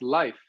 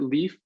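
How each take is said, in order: First: The name is said the Norwegian way. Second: The name is said the American way. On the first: This is how people in Norway say it. "in Norway it's Life" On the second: This is how the speaker is usually known. "I pronounce it Leaf because I've been I've born and raised in America"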